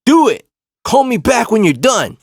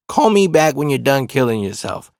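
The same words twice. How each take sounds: First: High, loud imitated shout; defiant retort. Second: Said in the usual way. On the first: Retelling girlfriend's reply to cousin's threat, loud mock defiance. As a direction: throw the dare back, imitating the girlfriend. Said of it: "the fact that she said".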